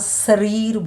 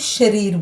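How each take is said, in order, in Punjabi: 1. ਸ਼ਬਦ ਸਾਧਾਰਨ 's' ਧੁਨੀ ਨਾਲ ਸ਼ੁਰੂ ਹੁੰਦਾ ਹੈ। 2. ਸ਼ਬਦ 'sh' ਧੁਨੀ ਨਾਲ ਸ਼ੁਰੂ ਹੁੰਦਾ ਹੈ। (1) "ਸੱਸੇ 'ਚ ਆਪਾਂ ਸਰੀਰ ਬੋਲਦੇ ਹਾਂ" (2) "ਸ਼ਸ਼ੇ 'ਚ ਜਦੋਂ ਇਹਨਾਂ ਨੂੰ ਬੋਲਾਂਗੇ, ਇਸੇ ਨੂੰ ਸਰੀਰ ਬੋਲਾਂਗੇ"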